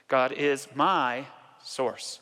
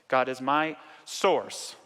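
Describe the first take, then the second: First: The stress falls on the word my. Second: The stress falls on the word source.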